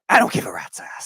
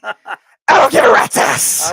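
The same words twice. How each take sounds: First: It is said quietly and low. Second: It is said very loudly.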